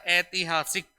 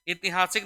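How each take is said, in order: First: ऐतिहासिक with drawn-out "ai" opening; correct form. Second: ऐतिहासिक run together with short narrow first vowel; wrong form. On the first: Teacher correcting students, ऐतिहासिक with a long open "ai". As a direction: say ऐतिहासिक as AI-ti-haa-sik. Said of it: "शब्द होता है हमारा". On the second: Teacher showing the error, ऐतिहासिक starting with short "i". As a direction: say ऐतिहासिक as i-ti-haa-sik. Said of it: "ऐतिहासिक नहीं होता है". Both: Shown as a demonstration.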